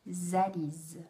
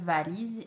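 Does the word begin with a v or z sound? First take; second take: z; v. First: The word begins with a z sound. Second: The word begins with a v sound. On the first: The speaker calls it wrong. "transformer également le V en Z" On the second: The speaker calls it right. "au lieu de dire"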